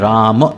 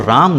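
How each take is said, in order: First: The word ends on an open 'maa' sound. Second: The word ends on a clipped, closed 'm'. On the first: The speaker calls it right. "जब रा और माँ का एक साथ उच्चारण होगा" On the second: The speaker calls it wrong. "आपको राम नहीं कहना है"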